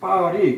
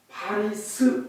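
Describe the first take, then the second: First: The word ends without any s sound. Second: The word ends with an audible s sound. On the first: "S는 발음을 안 해요. 그래서 파리" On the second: "피 에이 알 아이 파리스"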